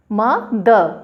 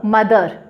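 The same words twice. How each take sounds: First: "म द" in two separate pieces, a clear stop between; split into syllables. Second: Said in the usual way. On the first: Shown as a demonstration. Teacher showing students two syllables, "म द" broken apart. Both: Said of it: "दो टुकड़ों में बांट के बोलना".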